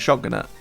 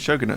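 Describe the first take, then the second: First: The first syllable sounds like 'shot'. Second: The first syllable sounds like 'show'. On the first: The speaker calls it wrong. "not the Shotgunette" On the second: The speaker calls it right. "it's actually called the Shogunate"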